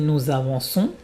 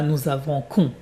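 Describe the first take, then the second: First: The middle consonant is a hissing s sound. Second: The middle consonant is a hard k sound. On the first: The speaker calls it right. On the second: The speaker calls it wrong.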